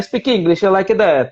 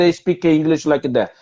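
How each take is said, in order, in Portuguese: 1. Fala-se com sotaque italiano. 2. Fala-se com sotaque francês. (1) "O italiano é mamma mia" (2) "Francês fala assim, ó"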